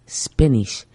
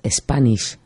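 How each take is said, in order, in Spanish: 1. La palabra empieza directamente con el sonido s. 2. Se añade una e antes de la s. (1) "es Spanish" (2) "No es Spanish"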